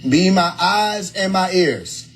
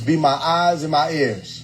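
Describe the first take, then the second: First: It is said slowly. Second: It is said at normal speed.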